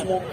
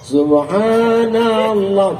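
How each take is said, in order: First: It is said very fast and clipped. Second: It is said very slowly and drawn out. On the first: "banyak cara bertasbih" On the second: "Jangan pula terlalu pelan"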